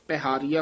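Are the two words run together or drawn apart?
together. The two words are run together quickly. The speaker calls it wrong. "ਇਕੱਠਾ ਨਹੀਂ ਕਹਿਣਾ"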